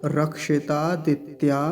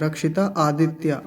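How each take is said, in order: First: रक्षितादित्या slowly in one word; joined correct. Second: रक्षिता आदित्य broken apart; wrong split. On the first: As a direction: run it together, slow. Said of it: "एक साथ बोला जाएगा सारा". (रक्षितादित्या एक साथ, धीरे) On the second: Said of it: "आदित्य अलग नहीं करेंगे". (रक्षिता और आदित्य अलग-अलग) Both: Shown as a demonstration.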